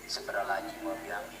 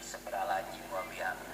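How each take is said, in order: First: It is rushed and slurred, syllables dropped. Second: The same.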